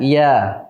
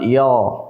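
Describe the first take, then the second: First: The letter is pronounced thin and light. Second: The letter is pronounced thick and rounded. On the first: The speaker calls it right. "diucapkan dengan tipis, tarqiq" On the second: The speaker calls it wrong. "bukan yo"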